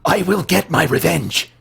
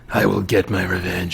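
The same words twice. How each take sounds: First: The voice is at its normal pitch. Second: The voice is pitched slightly deeper.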